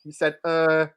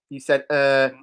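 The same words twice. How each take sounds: The two takes are said the same way.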